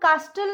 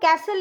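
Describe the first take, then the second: First: The t sound is pronounced. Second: The t sound is left out. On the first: The speaker calls it wrong. "उसको हम कास्टल नहीं बोलेंगे" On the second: The speaker calls it right. "उसको हम कैसल ही बोलेंगे"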